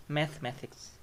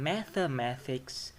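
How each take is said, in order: First: Mathematics shortened to math-matics; dropped syllable. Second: Mathematics with every syllable sounded; full syllables. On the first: Teacher showing the reduced form, mathematics as math-matics. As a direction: skip the e after th in mathematics. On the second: Teacher showing the full form, mathematics unreduced. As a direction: say the e after th in mathematics. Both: Shown as a demonstration. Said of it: "becomes mathematics".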